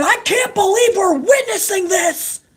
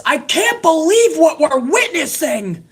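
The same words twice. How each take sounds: First: High, strained announcer scream; mock scream. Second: Slow, higher sarcastic echo of the call; sarcastic mock. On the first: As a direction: shriek it like a hyped commentator. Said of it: "And he's screaming". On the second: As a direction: drag out the line to ridicule it. Mocking the announcer again.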